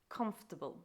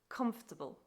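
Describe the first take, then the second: The two takes are said the same way.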